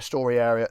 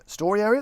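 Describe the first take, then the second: First: Said in the usual way. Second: AREA rising in a higher, louder question; puzzled self-query. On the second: Real, not acted. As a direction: echo it back as a question, AREA lifted high. Queries his own slip of tongue.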